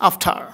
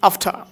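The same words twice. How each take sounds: No difference in how they are said.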